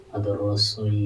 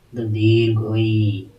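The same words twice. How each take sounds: First: ᱨᱚᱥᱳᱭ said short and quick; short vowel. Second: ᱫᱤᱨᱜᱷᱚᱭᱤ said slowly with a falling, lengthened end; slow drawn ᱫᱤᱨᱜᱷᱚᱭᱤ; long vowel. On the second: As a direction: draw out ᱫᱤᱨᱜᱷᱚᱭᱤ to show length. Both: Shown as a demonstration.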